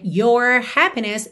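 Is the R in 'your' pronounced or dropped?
pronounced. The R in 'your' is clearly pronounced, American-style.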